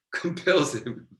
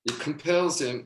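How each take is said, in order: First: "Compels" drawn out slow and high with a laugh; stress on compels. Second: Said in the usual way. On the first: Shown as a demonstration. Preacher restarts his point to the congregation, hitting "Compels" slowly. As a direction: lean hard on "Compels", slow and lifted. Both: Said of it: "oh, I just killed a mosquito".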